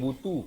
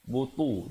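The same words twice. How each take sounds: First: The t sound is light and plain. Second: The t sound is heavy and emphatic. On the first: The speaker calls it wrong. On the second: The speaker calls it right.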